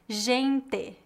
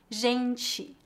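First: It is said with a Paraná accent. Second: It is said with a general Brazilian accent.

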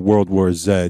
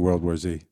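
First: The letter Z is pronounced as zed. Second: The letter Z is pronounced as zee. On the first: "if you were in the British Isles" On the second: "which we're not, so we're going to say"

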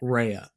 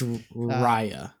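First: The first syllable sounds like 'ray'. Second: The first syllable sounds like 'rye'. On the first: The speaker calls it wrong. "has pronounced it Raya up until this point" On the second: The speaker calls it right. "pronounced R-I-Y-A"

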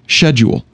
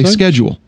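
First: It is said with a British pronunciation. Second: It is said with an American pronunciation. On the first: "if I were English, I would say schedule" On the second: "But I'm American, so I say schedule"

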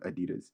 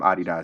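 First: It is said the American way. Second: It is said the British way. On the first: "instead of Adidas" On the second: "I believe they call them Adidas"

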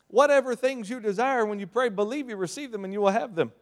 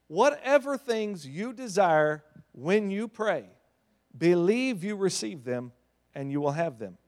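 First: It is said at a normal speed. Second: It is said slowly and deliberately.

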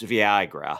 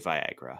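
First: The first syllable sounds like 'vee'. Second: The first syllable sounds like 'vye'. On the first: The speaker calls it wrong. "I said Viagra weird" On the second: The speaker calls it right. "I was trying to say Viagra"

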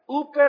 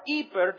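First: It is said in the older Greek pronunciation. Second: It is said in the newer Greek pronunciation. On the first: "depending on how you want to use old or young or new pronunciation of Greek" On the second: "I prefer iper because it has the idea of hyper"

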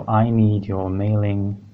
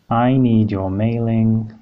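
Both takes have the same delivery.

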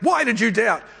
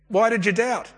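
First: It is said in a scolding, impatient tone. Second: It is said in a gentle, encouraging tone.

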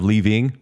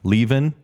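First: The word ends with the final g sound. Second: The word ends without the final g sound. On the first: "instead of" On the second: "if they can't put a G on at the end of their words"

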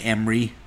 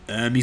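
First: Three syllables, with the m before the r. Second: Two syllables, with the r before the m. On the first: "Some people say Emery" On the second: "I don't know if I say his name right. Ermey"

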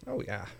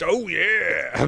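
First: It is said in his normal voice. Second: It is said in a Kool-Aid Man voice.

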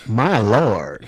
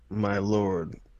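First: It is said in a Southern accent. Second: It is said in a plain accent.

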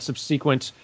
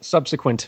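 First: The middle vowel is a long E sound. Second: The middle vowel is a short, reduced sound. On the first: The speaker calls it wrong. "Long E in the middle" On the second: The speaker calls it right. "Let me try this again"

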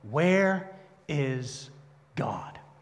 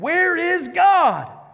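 First: It is said sternly at moderate volume. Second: It is said very loudly, almost shouting.

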